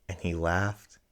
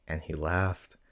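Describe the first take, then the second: No difference in how they are said.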